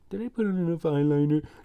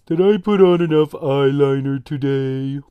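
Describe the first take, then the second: First: It is said in a plain, normal voice. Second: It is said in a slow, gloomy Eeyore voice.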